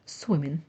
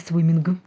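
First: The word ends without any g sound. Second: The word ends with an audible g sound. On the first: The speaker calls it right. "Г в кінці не звучить" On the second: The speaker calls it wrong. "не swimming"

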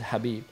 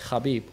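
First: The name begins with a soft H sound. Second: The name begins with a hard K sound. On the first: This is how the name is originally said. "But his name is Habib" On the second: This is the form that came through translation from Russian. "because it comes with K"

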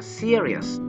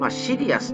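First: It is said with English sounds. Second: It is said with Japanese loanword sounds. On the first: The speaker calls it right. "忠実な発音をしておりますとね" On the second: The speaker calls it wrong. "英語の発音はシリアスでは多分通じない"

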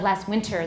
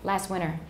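First: The T sound in 'winter' is clearly pronounced. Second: The T sound in 'winter' is dropped. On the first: This is an overly formal way of saying it. The speaker calls it wrong. "that sounds too formal" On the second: This is the everyday way of saying it. The speaker calls it right. "I usually say that"

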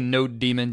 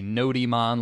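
First: It sounds like the two words node daemon. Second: It is said to rhyme with Pokemon. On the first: "it's Node and it's sort of a daemon" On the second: "like Pokemon"

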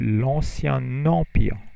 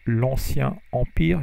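First: Ancien and empire are joined with a linking n. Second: Ancien and empire are said without a linking n. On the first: The speaker calls it right. "you say l'ancien empire" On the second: The speaker calls it wrong. "you don't say l'ancien empire"

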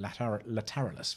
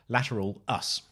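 First: The name is said as one blended word. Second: The name is said as 'lateral' plus 'us'. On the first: This is the way the speaker usually says it. The speaker calls it wrong. "I always call it Lateralus" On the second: This is the way others corrected the speaker to. The speaker calls it right. "I was corrected again as saying it's Lateral Us"

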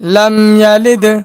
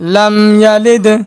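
Both takes have the same delivery.

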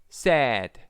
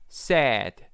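Both takes have the same delivery.

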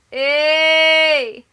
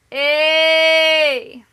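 First: The word is said short. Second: The word is held a bit longer. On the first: "twee keer kort" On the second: "één keer iets langer"

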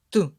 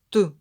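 The two takes are said the same way.

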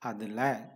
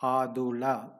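First: It is said in a natural reduced form. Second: Every letter is sounded out as written. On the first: The speaker calls it right. "No, it is adula" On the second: The speaker calls it wrong. "if you try to read it letter by letter, it becomes adula"

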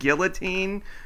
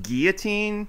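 First: The word is pronounced the English way. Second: The word is pronounced the French way. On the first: This is how the characters in the story say it. "everybody in this story pronounces it guillotine because it's not French" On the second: This is the technically correct pronunciation. "technically pronounced guillotine"

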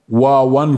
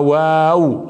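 First: The w sound is heavy and thick. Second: The w sound is light and thin. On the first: The speaker calls it wrong. "لا يوجد ... قبيلة من القبائل تلفظ الواو واوا" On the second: The speaker calls it right. "لكنها واو هكذا الذي تعلمناه"

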